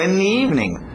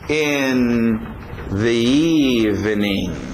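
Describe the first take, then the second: First: The word 'the' merges into a single 'ni' sound. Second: The word 'the' is said clearly and separately. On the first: "o que era the, por causa da influência do N e do I, ficou agora cem por cento ni" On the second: "a expressão in the evening"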